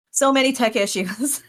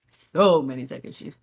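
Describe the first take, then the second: First: Higher-pitched "So many tech issues"; "So many tech issues" pitched up in complaint; exasperated lament. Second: "So many tech issues" sunk low after a laugh; low, weary lament. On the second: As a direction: drop low and stretch "So", lamenting. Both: Real, not acted. Repeats lament two contrasting ways.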